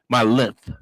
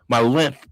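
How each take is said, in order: No difference in how they are said.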